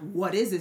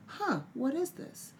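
First: It sounds suspicious and challenging. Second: It sounds curious and open.

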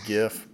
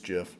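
First: It begins with a hard g sound. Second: It begins with a j sound. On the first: The speaker calls it wrong. "people can say it's GIF" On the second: The speaker calls it right. "the right way to say it, it's GIF. The creator of the GIF says it's GIF, like the GIF peanut butter"

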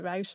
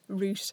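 First: The word is said in an American accent. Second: The word is said in a non-American accent.

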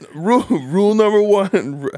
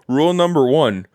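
First: It is spoken in a New York accent. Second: It is spoken in a Canadian accent. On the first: The speaker calls it wrong. "Why am I doing like a fucking New York accent?" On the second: The speaker calls it right. "How do you do Canada? Eh?"

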